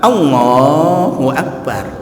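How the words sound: It is said with a Chinese accent. "orang Cina Allahu Akbar Cina"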